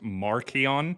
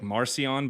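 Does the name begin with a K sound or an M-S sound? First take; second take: hard; soft. First: The middle consonant is a hard k sound. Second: The middle consonant is a soft s or sh sound. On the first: This is how the name was said originally. "his name was pronounced Markion" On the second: This is the usual modern way of saying it. "we generally will say like Marcion"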